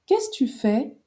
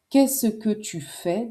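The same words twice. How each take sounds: First: "qu'est-ce" run straight into tu, the que dropped, said higher; casual spoken. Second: Said in the usual way. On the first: Shown as a demonstration. Teacher to learner, demoing dropped que, casual. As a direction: kess tu fais, no que, quick and lifted. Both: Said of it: "devient qu'est-ce tu fais".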